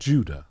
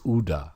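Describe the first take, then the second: First: The name begins with a J sound. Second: The name begins without a J sound. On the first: The speaker calls it wrong. "It's not Judah" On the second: The speaker calls it right. "There is no J"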